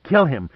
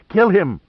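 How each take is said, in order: First: A first raised cry of kill him; screamed. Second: Much higher and louder full scream. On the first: Mei Qing ordering the guard to kill Pitt, rising cry. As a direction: call it out, rising. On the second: Mei Qing urging the guard to kill Pitt, screaming. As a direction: scream it out at the top of her voice. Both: A narrator's reading. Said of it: "Mei Qing screamed".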